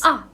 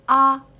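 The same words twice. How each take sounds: First: The pitch falls sharply from high to low. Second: The pitch stays high and level. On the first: "from highest point sharply going down" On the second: "You don't need to put any emotions"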